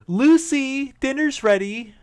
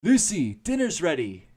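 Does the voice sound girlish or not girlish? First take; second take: girlish; not girlish. First: It is said in a girlish voice. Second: It is said in a less girlish voice.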